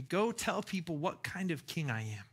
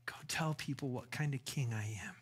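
First: Said in the usual way. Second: Hushed whisper of the king's command. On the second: Acted. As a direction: breathe it as a secret charge. Jesus voiced, then repeated.

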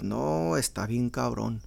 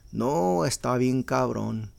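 First: Mechanic quote. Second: Slow Mexican Spanish "No, está bien cabrón"; Mexican phrase demo. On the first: Retold or imitated. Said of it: "they gotta start off with". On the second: Shown as a demonstration. Imitating a mechanic giving a quote, slow "No, está bien cabrón". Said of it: "more Mexicano would say".

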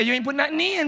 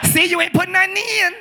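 First: Imitating a Chicago accent, pitched up. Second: Hammed-up Chicago accent, high and loud. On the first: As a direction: mimic her Chicago accent. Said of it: "I like your accent". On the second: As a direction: shout it in a mock Chicago accent.

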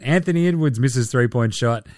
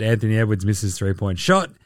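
First: Said in the usual way. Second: Lower, resigned read of the same line; weary deadpan. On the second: Shown as a demonstration. Reading yet another Edwards miss, deadpan and resigned. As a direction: sigh it out like the tenth miss. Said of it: "And you guessed it".

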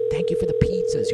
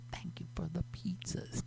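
First: Said in the usual way. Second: Breathy whispered thanks. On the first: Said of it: "Thank you for the pizzas (whispered repeat)". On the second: Pretend. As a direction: whisper it like a secret.

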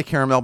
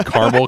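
First: Caramel as "CARE-uh-mel"; caramel said carefully, "CARE-uh-mel"; pretentious pronunciation. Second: Caramel as "CAR-mul"; caramel with no middle vowel, "CAR-mul"; simple man's pronunciation. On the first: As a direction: give caramel three full syllables, ending in "mel". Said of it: "I say caramel because it sounds pretentious". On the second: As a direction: say caramel in two plain syllables, "CAR-mul". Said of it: "I think I say caramel 'cause I'm a simple man". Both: Shown as a demonstration.

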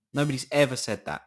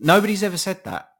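First: Said in the usual way. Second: Loud, high, exasperated burst; indignant outburst. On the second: Real, not acted. Ranting to listeners about a conspiracy, a loud indignant outburst. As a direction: blurt it out in disbelief.

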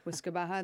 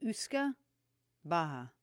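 First: Uisce Beatha run together as "WIS-ka BA-ha"; anglicised pronunciation. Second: Uisce Beatha said slowly as "OOS-ka BA-ha"; careful Irish Uisce Beatha, a pause between the words; Irish pronunciation. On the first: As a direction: start Uisce with a W, like "whisk-a", then BA-ha. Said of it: "they would pronounce it". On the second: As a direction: open Uisce with an "oos" sound, then a separate BA-ha for Beatha. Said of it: "it's pronounced like Uisce". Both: Shown as a demonstration.

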